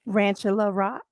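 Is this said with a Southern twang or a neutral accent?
neutral. It is said in a neutral, non-Southern accent. "that sounds L A"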